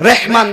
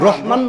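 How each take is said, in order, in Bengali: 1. প্রথম স্বরটি 'e' ধ্বনি। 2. প্রথম স্বরটি খোলা 'a' ধ্বনি। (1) "নামটাও বিকৃতি করে রেখেছে" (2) "রহমান নয়"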